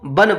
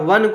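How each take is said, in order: First: The word begins with a b sound. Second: The word begins with a v sound. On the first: This is how Eastern Hindi says it. "बोला जाता है" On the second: This is the standard form. "वन को"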